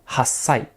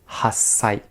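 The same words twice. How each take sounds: The two takes are said the same way.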